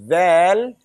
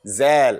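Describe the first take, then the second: First: The first sound is a voiced th. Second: The first sound is a buzzing z. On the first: The speaker calls it right. "The tip of the tongue is going to be between your teeth" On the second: The speaker calls it wrong. "The common mistake is what? Zal, and this is wrong"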